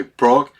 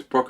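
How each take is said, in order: First: Loud imitation of an angry brother; imitated scary yell. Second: Said in the usual way. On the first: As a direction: call the name much louder, mimicking a scary scolding. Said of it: "so loud and such an awful, scary, terrifying voice". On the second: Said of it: "her name is Brooke".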